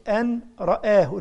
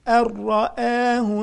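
First: The 'n' is pronounced before the 'r'. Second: The 'n' merges fully into the 'r'. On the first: The speaker calls it wrong. "ما قولش أن رآه" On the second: The speaker calls it right. "أر أر أر"

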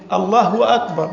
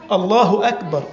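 First: A 'w' sound is added after the vowel of Allah. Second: The vowel after Allah is short, with no 'w'. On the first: The speaker calls it wrong. "يضع حرف الواو" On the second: The speaker calls it right. "ما فيش واو"

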